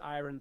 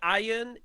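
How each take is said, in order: First: It is said as spelled, with a clear r sound. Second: It is said the usual way, without a clear r sound. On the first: The speaker calls it wrong. "I don't know where this iron thing's coming from, other than the spelling" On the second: The speaker calls it right. "iron has been the correct pronunciation"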